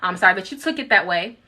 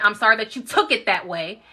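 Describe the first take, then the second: First: The apology is said in a milder, softer way. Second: The apology is said with a sharp, biting edge. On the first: "I didn't say it with that much bite" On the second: "that's kind of how I'm saying it now"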